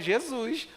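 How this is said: The final s is a hushing 'sh' sound. "eu falo Jesus. Aí, chiou"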